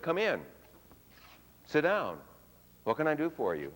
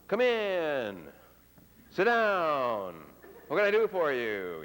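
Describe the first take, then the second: First: The pitch falls at an ordinary rate. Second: The pitch falls slowly and drawn out. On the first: A normal interaction is expected. "Normal pitch drop" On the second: The person is being friendly. "the elongated pitch drop, which frequently conveys friendliness"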